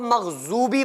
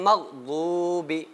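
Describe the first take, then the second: First: The middle consonant sounds like a z. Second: The middle consonant is an emphatic ḍ sound. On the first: The speaker calls it wrong. "जे की आवाज निकलेगी" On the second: The speaker calls it right. "ज़्वाद का खुद अपना मखरज है"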